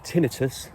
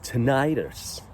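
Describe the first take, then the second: First: The word is said with a British pronunciation. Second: The word is said with an American pronunciation. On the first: "So we call it tinnitus" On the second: "on the other side of the pond, we call it tinnitus"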